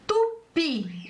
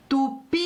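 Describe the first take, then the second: First: Said in the usual way. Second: "Tupi" called out with a long held "pi"; calling the word. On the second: Shown as a demonstration. Teacher calls the word for pupils, calling out. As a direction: call "Tupi", dragging out the final "i". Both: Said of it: "Vamos chamar a palavra tupi".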